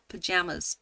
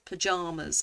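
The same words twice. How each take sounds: First: "pajamas" with JAM in the middle, puh-JAM-uz; second-syllable variant. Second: "pajamas" with a long AH, puh-JAH-muz; palm vowel. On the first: Quiz taker testing the other "pajamas", puh-JAM-uz. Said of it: "The second syllable". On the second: Quiz taker choosing her own "pajamas", JAH as in palm. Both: Shown as a demonstration.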